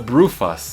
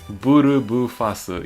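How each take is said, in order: First: The name is said in a shortened English way. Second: The name is said with full Japanese syllables. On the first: "I always the Brufas" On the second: "in Japanese"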